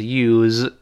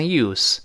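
First: Long USE with a z ending; verb pronunciation. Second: Crisp s at the end of USE; noun pronunciation. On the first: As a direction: USE ending in a voiced z, "yooz". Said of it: "动词是use". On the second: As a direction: USE ending in a voiceless s, "yoos". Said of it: "名词读成use". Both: Shown as a demonstration.

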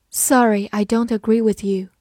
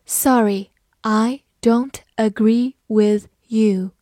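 First: Said in the usual way. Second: Slow, careful word-by-word read. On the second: Shown as a demonstration. Teacher reading the example sentence slowly to students. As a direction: read it slowly so learners can follow. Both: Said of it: "好，慢慢来读".

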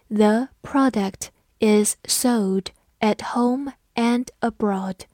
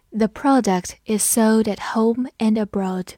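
First: Word by word, slow and clear; slow reading. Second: Said in the usual way. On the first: Shown as a demonstration. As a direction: read it slowly for learners. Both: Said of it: "我们慢读一遍".

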